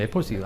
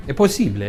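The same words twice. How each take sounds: First: Said in the usual way. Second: Put-on playful Italian accent, a bit louder; hammy Italian flourish. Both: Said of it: "continue the presentation in an Italian accent".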